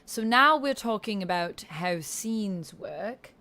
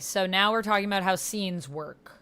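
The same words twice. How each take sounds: First: It is spoken in a British accent. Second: It is spoken without a British accent.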